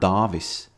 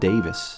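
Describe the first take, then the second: First: The first vowel is a long 'ah' sound. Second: The first vowel is not an 'ah' sound. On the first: The speaker calls it right. "the A is has a little bit a, a little line above it, meaning that it's pronounced ah" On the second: The speaker calls it wrong. "not Davis"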